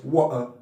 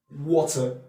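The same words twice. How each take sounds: First: The middle t becomes a glottal stop. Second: The middle t is a clear t sound. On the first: "what you hear from a Cockney accent is" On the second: "He's trying to say water"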